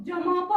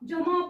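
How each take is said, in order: No difference in how they are said.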